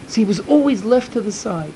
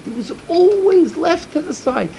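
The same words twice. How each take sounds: First: Said in the usual way. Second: "always" lifted high and drawn out, whole line slower; pleading emphasis. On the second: Acted. Rabbi urging listeners about a boy left out, slow higher emphasis on "always". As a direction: lean hard on "always", slow and higher, pained.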